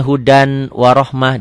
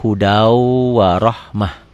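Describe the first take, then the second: First: "hudan warohmah" said slowly with clear n; as written. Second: Slow "hudau warohmah" with a held w; as read. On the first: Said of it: "Tulisannya hudan warohmah". ("hudan warohmah" pelan, n jelas) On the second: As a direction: drop the n and linger from "hudau" into "warohmah". ("hudau warohmah", w berdengung dan ditahan) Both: Shown as a demonstration.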